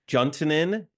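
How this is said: The name is said with an English pronunciation. "that's the English pronunciation?"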